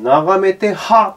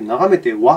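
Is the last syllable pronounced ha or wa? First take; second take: ha; wa. First: The final particle is pronounced "ha". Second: The final particle is pronounced "wa". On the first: The speaker calls it wrong. "これだとミクさんは、眺めてはって言っちゃうんですよ" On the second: The speaker calls it right. "眺めてはって言ってほしいので、ここはちゃんとはで設定をする"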